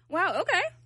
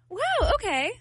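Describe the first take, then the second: First: It sounds mocking and sarcastic. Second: It sounds warm and supportive.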